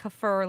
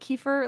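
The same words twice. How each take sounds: First: The stress falls on the second syllable. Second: The stress falls on the first syllable.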